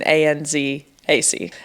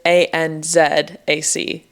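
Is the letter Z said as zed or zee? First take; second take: zee; zed. First: The letter Z is said as zee. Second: The letter Z is said as zed. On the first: "rather than" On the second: "Z is Z. ... That's how you would spell it"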